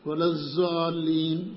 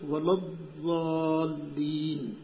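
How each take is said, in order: First: The key consonant is pronounced as a z-sound. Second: The key consonant is pronounced as an emphatic d-sound. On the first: The speaker calls it wrong. "زا پڑھتے ہیں، یہ تحریف ہے نا" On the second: The speaker calls it right. "ضاد کو نہ دال پڑھنا ہے نہ زا پڑھنا ہے، بلکہ کیا پڑھنا ہے؟"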